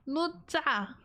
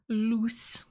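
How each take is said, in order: First: The word ends with a ch sound and vowel. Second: The word ends with a hissing s sound. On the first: "It's got like that "t" sound in it" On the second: "it said it pronounced like loose"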